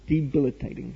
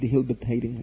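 First: The word is said without an h sound. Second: The word is said with an extra h sound. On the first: The speaker calls it right. "Debilitating without the H? Live and learn" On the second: The speaker calls it wrong. "I've mispronounced it"

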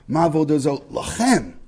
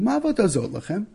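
First: The question sounds accusing and distancing. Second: The question sounds innocent and curious. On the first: The asker separates himself from the group. "the way that we read this in the Haggadah" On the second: A child simply asks what is being done. "it sounds quite innocent"

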